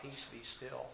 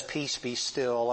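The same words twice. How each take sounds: First: A hushed, near-silent "still" instead of a holler; calm the storm with a quiet, breathy command. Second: Slow, drawn-out "Peace, be still"; slow calm command. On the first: Lord commanding the storm, hushed and soft. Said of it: "and he hollers out". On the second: The Lord calming the sea, slow and steady. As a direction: let each word settle like calm water. This man's voice above the storm. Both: Retold or imitated.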